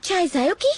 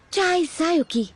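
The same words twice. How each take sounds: First: "चाय जायोकी" with a questioning rise at the end. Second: "चाय जायोकी" slightly drawn out, falling at the end; settled statement. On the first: Newcomer testing her given name "चाय जायोकी", questioning with a final rise. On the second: Newcomer accepting her new name "चाय जायोकी", settled falling statement. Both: Acted.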